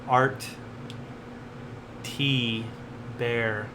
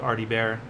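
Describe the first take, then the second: First: The name is said slowly with separate parts. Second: The name is said fast with parts blended.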